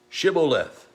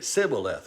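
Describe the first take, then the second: First: The word begins with a 'sh' sound. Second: The word begins with an 's' sound. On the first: The speaker is not an Ephraimite. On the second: The speaker is an Ephraimite.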